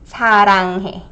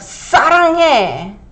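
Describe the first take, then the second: First: The first consonant is a plain s sound. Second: The first consonant is tense and forceful. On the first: The speaker calls it right. "So we'll use the regular 스 sound" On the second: The speaker calls it wrong. "So don't say 사랑해. It sounds too aggressive"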